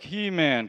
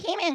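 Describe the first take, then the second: First: The line is said at a normal speed. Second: The line is said noticeably sped up.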